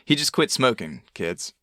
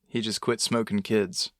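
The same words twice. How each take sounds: First: It has a pause before kids. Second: It runs on with no pause before kids. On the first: He stopped smoking, said to the kids. The speaker calls it right. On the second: He stopped smoking children. The speaker calls it wrong.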